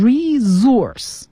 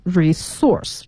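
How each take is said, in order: First: Resource drawn out slowly, stressed on the first syllable RE; American pronunciation. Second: Resource with stress on the second syllable, SOURCE; British pronunciation. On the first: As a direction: say resource American-style, stress up front, s voiced as z. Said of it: "会给它重音放在前面". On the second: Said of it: "重音在第二个音节source上面". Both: Shown as a demonstration.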